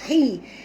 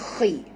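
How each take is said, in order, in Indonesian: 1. Suku kata ini dimulai dengan h lembut yang berdesah. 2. Suku kata ini dimulai dengan kh serak dari tenggorokan. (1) "Jangan baca hi" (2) "baca khi"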